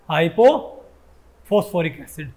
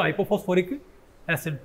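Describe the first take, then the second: First: Slow, drawn-out answer. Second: Said in the usual way. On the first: Shown as a demonstration. Teacher answering his own question, slowly spelling out hypophosphoric acid. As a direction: stretch hypophosphoric out slowly, syllable by syllable. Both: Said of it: "इसका नाम क्या हो जाएगा?".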